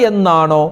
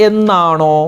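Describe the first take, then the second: No difference in how they are said.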